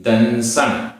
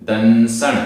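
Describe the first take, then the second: The two takes are said the same way.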